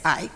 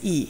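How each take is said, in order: First: The vowel sounds like the word 'eye'. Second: The vowel sounds like the letter 'ee'. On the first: This is how most Americans say it. "In U S, ninety percent of the population or more would say I" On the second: This is how most Europeans say it. "But in Europe, ... ninety percent plus would say E"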